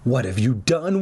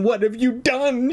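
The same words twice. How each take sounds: First: Restrained start to a distressed question; trembling, first time. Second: High, distressed repeat, escalating; trembling more. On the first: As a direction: ask it in dismay, held back in pitch. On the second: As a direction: wail the question high in mounting dismay. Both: A narrator's reading. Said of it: "Her voice trembled more each time".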